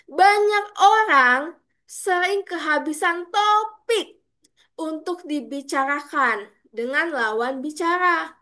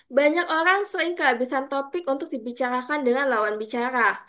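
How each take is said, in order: First: It is delivered with energy and clear emphasis. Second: It is delivered flatly with little energy. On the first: The speaker calls it right. "Kita harus bisa powerful dalam membawakan materi. Saya akan contohkan ini" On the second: The speaker calls it wrong. "Bayangkan kalau misalnya saya membawakan seperti ini"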